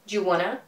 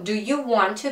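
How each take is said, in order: First: 'Want to' is blended into 'wanna'. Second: Each word of 'want to' is said fully. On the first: "becomes do you wanna" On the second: "do you want to becomes"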